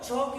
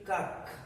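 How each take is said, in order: First: The word begins with a ch sound. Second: The word begins with a k sound. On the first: "chalk is okay. C H should be pronounced as cha" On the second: "If this is chemistry, this should be kak"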